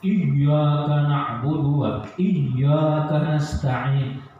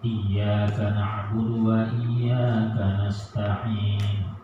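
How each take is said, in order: First: The doubled y is pressed very hard. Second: The doubled y is pressed only slightly. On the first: The speaker calls it wrong. "iyyaka na'budunya itu yang tekan nih, sangat tekan" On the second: The speaker calls it right. "Agak landai sedikit, ada sedikit apanya, tekannya, tapi jangan terlalu tekan"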